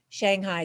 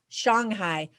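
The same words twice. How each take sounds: First: It is said with an American English pronunciation. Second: It is said with a Mandarin Chinese pronunciation. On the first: This is how Americans know the name. "because that's how Americans know it" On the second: This is how locals say the name. "or as they pronounce it"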